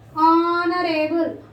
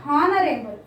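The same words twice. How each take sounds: First: The word begins without an H sound. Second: The word begins with an audible H sound. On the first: The speaker calls it right. "This should be pronounced as honorable. ... So H is silent here" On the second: The speaker calls it wrong.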